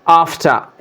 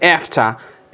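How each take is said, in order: First: The vowel is a long open 'ah' sound. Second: The vowel is a short 'a' like 'cat'. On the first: "in British English" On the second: "in American English"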